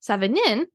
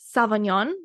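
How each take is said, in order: First: It is said sounding out its spelling. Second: It is said sounding almost like Sauvignon. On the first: The speaker calls it wrong. "I'm saying it wrong on purpose" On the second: The speaker calls it right. "it like sounds like Sauvignon Blanc"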